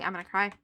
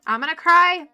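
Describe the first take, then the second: First: Said in the usual way. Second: Loud, rising on the verge of tears; nearly crying, voice lifting; loud teary exclaim; louder half-cry, pitch up. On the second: Real, not acted.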